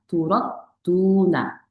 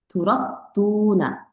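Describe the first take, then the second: Both takes have the same delivery.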